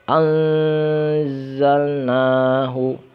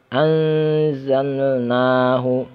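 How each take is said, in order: No difference in how they are said.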